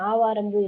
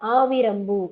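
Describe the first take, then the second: First: The second syllable has a long 'aa' vowel. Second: The second syllable has a short 'i' vowel. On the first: This is the colloquial form. The speaker calls it wrong. "ஆவாரம்பூ இல்ல" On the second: This is the written form. The speaker calls it right. "எழுத்தொழுத்துல எப்படி இருக்கணும்?"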